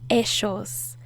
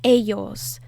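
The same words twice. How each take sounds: First: It is said with an Argentine accent. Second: It is said with a Mexican accent.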